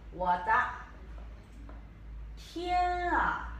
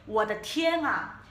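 First: 我的 then 天啊, split by long pauses, 天啊 high; slow syllable demo. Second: 我的天啊 said whole, slowly and smoothly; the whole 我的天啊 modelled for students; full phrase demo. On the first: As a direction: teach 我的 天啊 word by word, slowly. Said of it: "Mas como se fala em mandarim?". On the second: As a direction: run 我的天啊 together at a slow teaching pace. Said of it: "Ah, não tem tom". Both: Shown as a demonstration.

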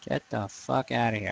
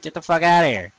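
First: Said in the usual way. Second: Snapping at invaders, a bit louder; mock dismissal. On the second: Retelling what he says to game invaders, mildly louder. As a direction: brush the invader off with a mild mock bark. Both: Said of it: "It's like".

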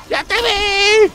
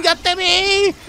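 First: Teasing taunt. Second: Said in the usual way. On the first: Real, not acted. Taunts teammate Winston, drawn out.

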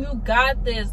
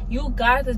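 First: Said in the usual way. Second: "you got this" said slowly, leaning on "got"; slow emphatic repeat. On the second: Real, not acted. Encouraging nervous test takers, slow emphatic reassurance. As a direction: drag out "got" so they believe it. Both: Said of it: "Like, you got this".

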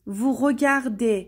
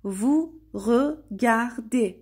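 First: Said in the usual way. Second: "vous regardez" very slowly, each syllable set apart. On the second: Shown as a demonstration. Teacher showing learners "vous regardez", syllable by syllable. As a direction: break "vous regardez" into separate, drawn-out syllables.

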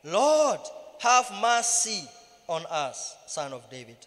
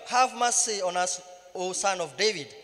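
First: Crying out louder. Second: Crying out. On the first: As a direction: plead out loud, louder than the crowd. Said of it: "they cried out the more". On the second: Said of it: "cried out". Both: A narrator's reading.

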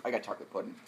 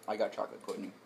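First: Words round a chewed candy; eating gross jelly beans. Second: Said in the usual way. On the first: Real, not acted. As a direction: mouth full, chewing a jelly bean. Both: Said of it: "It took me a second to recognize the flavor".

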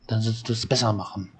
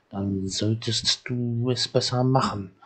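First: Quick, rushed repeat; fast reading. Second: Slow and deliberate, each word weighed; slow reading. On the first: Game elder repeating the boat advice in a quick rush. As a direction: rattle the line off fast. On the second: Game elder telling the child to fix the boat, slowly. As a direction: read it out slowly like a stern order. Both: Acted. Same line read twice, slow then fast.

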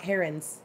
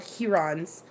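First: "herons" said HAIR-uns; "herons" with HAIR first and weak -uns; rejected HAIR-uns pronunciation. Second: "herons" said HEE-rons; long ee in "herons", full -rons; HEE-rons pronunciation. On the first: The name they never used, "herons" as HAIR-uns. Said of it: "were called herons". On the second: What they were called growing up, "herons" as HEE-rons. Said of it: "not herons". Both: Shown as a demonstration.

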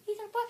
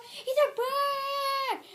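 First: Said in the usual way. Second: Shouted taunt. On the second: Pretend. Repeated taunt building to shout.

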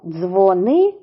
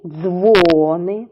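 First: Дзвони with a rising, stressed НИ; dzvo-NY, rising; stress on second syllable. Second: Дзвони with a long, strong ДЗВО; DZVOO-ny; stress on first syllable. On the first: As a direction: lift the ни of Дзвони. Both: Shown as a demonstration. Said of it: "Тож іще раз повторюємо".

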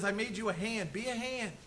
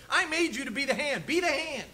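First: Softer, gentle restatement of God's word; God's soft reminder. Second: Higher, firm declaration of God's voice; God's firm command. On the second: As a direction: proclaim it as God's clear order. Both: Retold or imitated. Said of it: "God says".

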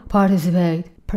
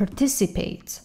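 First: Participate said slowly in a put-on wrong way; mock the mispronounced participate, slow and odd. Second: Participate, clean par-TI-ci-pate; correct participate. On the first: Teacher shows students how not to say it, slow and odd. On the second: Teacher gives students the correct pronunciation, stress on TI. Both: Shown as a demonstration. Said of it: "نگو participate".

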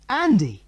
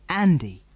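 First: High, thrilled squeal of the name; little girl squealing with excitement; girlish squeal. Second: Said in the usual way. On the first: Acted. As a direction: squeal it in delight. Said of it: "squealed Jill". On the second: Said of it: "reading the name on the boat".

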